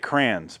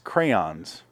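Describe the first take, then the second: First: The word is said with a Midwestern pronunciation. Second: The word is said with the standard pronunciation. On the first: This is how people from the Midwest say it. "Because we're from the Midwest, ... So we say crayons" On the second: This is how the word is properly pronounced. "but it's crayons. ... I know that's how it's pronounced"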